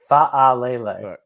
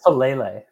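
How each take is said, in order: First: The opening has two separate 'a' sounds. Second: The opening vowels merge into one 'a' sound. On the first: The speaker calls it right. "It's 2 A's. ... It's 2 sounds" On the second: The speaker calls it wrong. "I say Falele"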